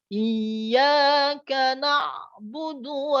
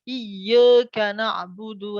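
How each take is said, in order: First: The long 'a' after 'iyy' is open and long. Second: The long 'a' after 'iyy' is cut short. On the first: The speaker calls it right. "Jadi mulutnya dibuka" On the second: The speaker calls it wrong. "itu yang salah"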